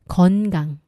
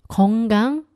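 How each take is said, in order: First: The first syllable ends in a clear n sound. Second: The first syllable ends in an ng sound. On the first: The speaker calls it right. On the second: The speaker calls it wrong.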